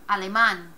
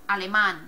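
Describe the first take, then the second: No difference in how they are said.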